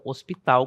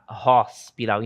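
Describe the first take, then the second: First: The word begins directly with the vowel sound. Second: The word begins with a breathy h sound. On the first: The speaker calls it wrong. "e não hospital, como na língua portuguesa" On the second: The speaker calls it right. "Som de H, em língua inglesa, iniciando palavra, tem som de R"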